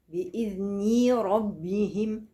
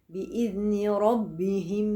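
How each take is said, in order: The two takes are said the same way.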